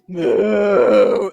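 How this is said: A deep, guttural moo from low in the throat. This is the sound cows really make. The speaker calls it right. "some like deep guttural sound"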